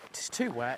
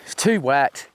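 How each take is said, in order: First: Softer trailing repeat; quiet muttered repeat. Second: Said in the usual way. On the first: Real, not acted. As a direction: drop it away under breath. Repeated, dropping away.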